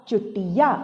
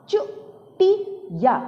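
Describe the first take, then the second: First: Said in the usual way. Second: चुटिया in three slow, higher pieces, चु, टि, या; syllable by syllable. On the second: Shown as a demonstration. Teacher reading चुटिया for children, syllable by syllable. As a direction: sound out चुटिया with clear gaps. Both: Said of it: "ऐसे नहीं पढ़ना होता है".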